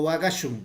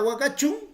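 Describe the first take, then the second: First: The last syllable starts with an 'sh' sound. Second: The last syllable starts with a 'ch' sound. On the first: The speaker calls it right. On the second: The speaker calls it wrong.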